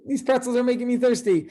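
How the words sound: It sounds fairly happy, like Jerry.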